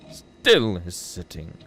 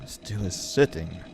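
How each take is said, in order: First: "still" punched and drawn out; stress on still. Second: Slow, level-voiced poem line; measured verse reading. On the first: Acted. Reader dwelling on the unmoving raven, "still" stretched with weight. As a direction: lean hard on "still", very slowly. Repeats the line with added weight. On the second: Reader describing the raven that stays, measured and grave. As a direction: recite it gravely and unhurried.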